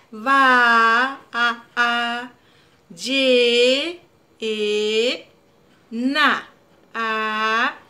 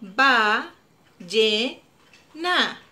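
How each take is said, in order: First: "Ba, a, a, ye, e, na" with each vowel drawn out long; stretched vowels. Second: Said in the usual way. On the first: Shown as a demonstration. Teacher to child, stretching each vowel of ballena. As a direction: sing out the a and e of ballena slowly. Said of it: "alarguemos el sonido de las vocales". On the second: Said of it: "Volvamos a hacer ballena".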